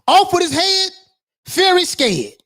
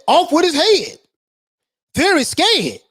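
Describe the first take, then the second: No difference in how they are said.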